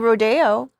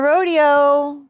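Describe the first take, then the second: First: Said the way the street name is said. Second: Said the usual way for the cowboy show. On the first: It names the famous shopping street. "If we're going down Rodeo Drive" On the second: It names the cowboy show with clowns. "the clowns for the rodeo. That's my rodeo"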